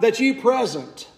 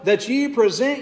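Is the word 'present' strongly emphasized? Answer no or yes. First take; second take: yes; no. First: The word present is said with strong emphasis. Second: The word present is said without special emphasis.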